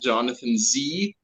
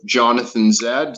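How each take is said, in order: First: The final letter is said the American way. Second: The final letter is said the non-American way.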